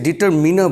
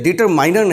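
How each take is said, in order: First: The third syllable sounds like 'min'. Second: The third syllable sounds like 'mine'. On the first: The speaker calls it right. "इसे डिटरमिनर बोलते हैं" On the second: The speaker calls it wrong. "पहले तो इसे डिटरमाइनर नहीं पढ़ते, this is not a correct pronunciation"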